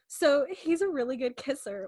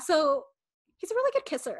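First: It is said in her natural voice. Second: It is said in a put-on fifteen-year-old voice.

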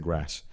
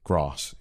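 First: The word is said in a regional accent. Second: The word is said in a posh RP accent. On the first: The speaker calls it wrong. "You can't say grass" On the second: The speaker calls it right. "they started making me speak RP English"

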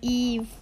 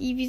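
First: The name is said with one syllable. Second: The name is said with two syllables. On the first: The speaker calls it right. "sondern Eve" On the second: The speaker calls it wrong. "aber er heißt nicht Eevee"

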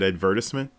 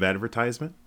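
First: The word is said in a fancier-sounding way. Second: The word is said in an everyday way.

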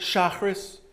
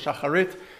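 First: It is said in Ashkenazic Hebrew pronunciation. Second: It is said in Sephardic Hebrew pronunciation.

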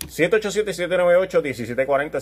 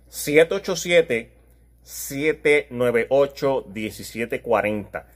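First: The number is said at normal speed. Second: The number is said slowly.

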